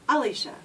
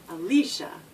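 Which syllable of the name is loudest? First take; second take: a; li. First: The stress is on the first syllable, 'a'. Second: The stress is on the middle syllable, 'lee'.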